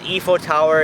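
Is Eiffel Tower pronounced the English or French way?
French. The name is pronounced the French way. This is how the girlfriend says it. "she says Eiffel Tower instead of"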